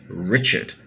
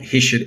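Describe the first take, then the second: First: The name begins with a clear R sound. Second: The name begins with a breathy H-like sound. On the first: The speaker calls it right. "it's Richard" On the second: The speaker calls it wrong. "it's not Hishard"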